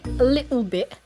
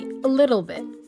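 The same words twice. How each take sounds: First: It is spoken in a British accent. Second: It is spoken in an American accent. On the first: "British people would say" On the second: "while Americans would say"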